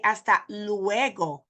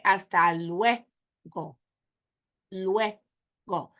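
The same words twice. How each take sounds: First: Luego slowly stretched as "loo-EH-go"; wrong split vowels. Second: Luego slow, as "LWEH... go"; correct diphthong. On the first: Teacher showing what we don't say, split vowels. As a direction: say luego in three drawn-out syllables. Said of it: "We don't say". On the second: Teacher showing how we say it, joined diphthong. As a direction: join u and e in luego, pause before go. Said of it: "We say". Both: Shown as a demonstration.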